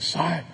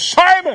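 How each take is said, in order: First: The name is said softly, pleading. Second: The name is shouted loudly. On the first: "Was it soft and pleading" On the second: "Did he scream this"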